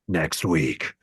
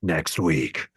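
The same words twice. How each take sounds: First: It is said in a dark, scary voice. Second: The same.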